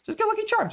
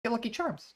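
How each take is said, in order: First: Excited urging. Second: Said in the usual way. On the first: Shown as a demonstration. Urging viewers to grab Lucky Charms, higher and excited.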